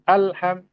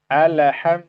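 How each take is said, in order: First: The L sound is cut off abruptly. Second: The L sound is released with a bounce. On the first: "tidak boleh juga langsung alham" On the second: "alham, kita pantulkan"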